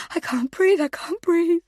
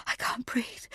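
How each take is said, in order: First: High, loud, gasping plea; the fear breaks into a cry; gagged mother crying out for air; panicked cry. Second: Breathless voiceless whisper; gagged mother whispering for air; panicked whisper. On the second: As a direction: barely get the words out. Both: Acted.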